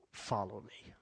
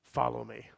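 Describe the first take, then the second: First: An invitation breathed softly; hushed whispered call. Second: Said in the usual way. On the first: Acted. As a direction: whisper it, intimate. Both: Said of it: "repeated invitation".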